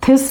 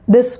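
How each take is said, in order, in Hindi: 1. यह aspirated t ध्वनि से शुरू होता है। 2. यह एक नरम d जैसी ध्वनि से शुरू होता है। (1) "थिस नहीं बोलोगे" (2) "दिस दिस बोलोगे"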